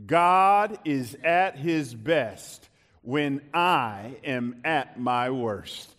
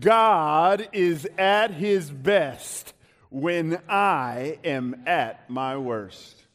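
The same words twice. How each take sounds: First: Slow lead for a congregation to join; measured, falling recitation. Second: Loud, slow, full-chested proclamation; big drawn-out declaration, falling at the end. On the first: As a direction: say it slowly so they can follow. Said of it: "Can you say that with me?". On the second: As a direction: say it with your chest. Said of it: "say it with your chest". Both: Shown as a demonstration.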